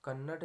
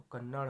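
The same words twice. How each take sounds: First: कन्नड़ ending in a hard unflapped stop; wrong pronunciation. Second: कन्नड़ ending in flapped ड़; correct pronunciation. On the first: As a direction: say कन्नड़ as "kannad", hard final d. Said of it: "नहीं होता दोस्तों". (कन्नड़ के अंत में बिना बिंदी का ड बोलें) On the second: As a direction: say कन्नड़ as "kannar", tongue flapped. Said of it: "होता है". (कन्नड़ के अंत में ड़ बोलें) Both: Shown as a demonstration.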